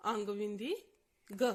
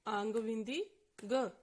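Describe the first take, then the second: No difference in how they are said.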